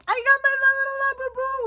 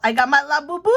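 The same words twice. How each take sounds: First: Much higher, cooing over the little toy; showing off her new little Labubu, cutesy squeal. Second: Said in the usual way. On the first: Real, not acted. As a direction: gush like it's the cutest thing ever.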